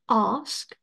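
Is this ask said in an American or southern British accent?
southern British. It is said in a southern British accent. "Britové na jihu Británie říkají ask"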